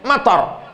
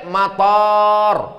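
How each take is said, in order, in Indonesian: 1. Vokal pertama pendek. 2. Vokal pertama panjang. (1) "Mator pendek, hujan" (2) "Tapi kalau pakai alif, mator, airport"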